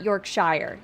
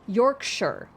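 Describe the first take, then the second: First: The ending is full, sounding like 'shire'. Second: The ending is reduced, sounding like 'sher'. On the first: The speaker calls it wrong. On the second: The speaker calls it right. "pronounced like how you would say New Hampshire"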